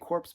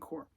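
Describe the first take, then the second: First: The word ends with a P and S sound. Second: The word ends without a P sound. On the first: The speaker calls it wrong. "I should always say corpse because there is a P" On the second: The speaker calls it right. "you don't pronounce the P"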